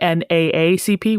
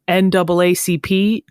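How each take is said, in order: First: Each A is named separately, one by one. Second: The two A's are said as 'double A'. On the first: "we don't say N A A C P" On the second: "we say double A"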